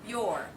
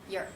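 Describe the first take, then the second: First: The vowel is full and said unhurriedly. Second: The vowel is reduced and said very quickly. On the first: "This can be your" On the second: "let's reduce it, Notice how quick it is"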